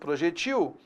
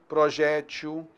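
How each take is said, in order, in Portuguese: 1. A tônica está na última sílaba. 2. A tônica está na penúltima sílaba. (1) "se a oxítona não tem acento" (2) "então a paroxítona tem"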